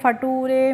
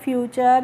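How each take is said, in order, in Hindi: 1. अंत 'tooray' की तरह बोला जाता है। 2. अंत 'chur' की तरह बोला जाता है। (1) "नहीं पढ़ेंगे" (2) "क्या पढ़ेंगे?"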